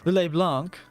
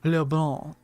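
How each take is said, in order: First: It is said with a plain English accent. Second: It is said with a fancier French accent. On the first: The speaker calls it wrong. "It's not Le Blanc" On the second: The speaker calls it right. "it's Le Blanc"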